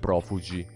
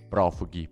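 First: The middle consonant sounds soft, somewhat French. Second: The middle consonant sounds hard, plainly Italian. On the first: The speaker calls it wrong. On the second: The speaker calls it right.

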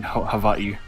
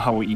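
First: The middle consonant is a v sound. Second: The middle consonant is a w sound. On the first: The speaker calls it right. "the W's are actually V sounds" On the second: The speaker calls it wrong. "not Hawaii"

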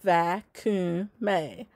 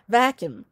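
First: Each syllable is pronounced separately and carefully. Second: The word is said smoothly in a regional accent. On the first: "I said it each syllable" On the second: "now say it with your accent"

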